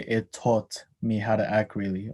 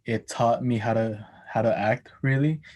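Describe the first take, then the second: First: Taught said with a rounded o vowel; New Zealand o in taught; ah turned to o. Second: Said in the usual way. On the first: Shown as a demonstration. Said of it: "he would say". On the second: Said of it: "instead of saying".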